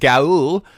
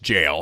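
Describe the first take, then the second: First: The word begins with a hard g sound. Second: The word begins with a j sound. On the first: The speaker calls it wrong. "I when I kept continually been pronouncing as Gaul" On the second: The speaker calls it right. "it's actually just jail"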